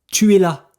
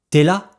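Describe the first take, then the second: First: Both words tu and es are fully pronounced. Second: Tu and es merge into one short syllable.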